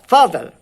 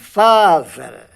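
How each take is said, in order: First: The word is said quickly. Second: The word is said slowly. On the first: The speaker calls it right. "rápido" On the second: The speaker calls it wrong. "devagar assim"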